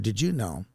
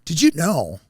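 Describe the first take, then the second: First: It is said flat, with little pitch movement. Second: It is said lively, with pitch inflection. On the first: The speaker calls it wrong. "you didn't go" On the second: The speaker calls it right. "You actually a little inflection"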